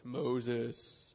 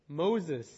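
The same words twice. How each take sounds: First: It is said in a put-on, godlike voice. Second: It is said in the plain reading voice.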